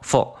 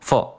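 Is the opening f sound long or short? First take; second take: short; short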